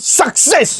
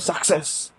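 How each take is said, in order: First: The word starts with a sharp, punchy attack. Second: The word is flattened with no sharp attack. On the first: The emotion comes through and the vocal pops out. The speaker calls it right. "ये जो चीज है सुनाई दे" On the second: The emotion is lost to the compressor. The speaker calls it wrong. "अगर ऐसा हो जाए तो"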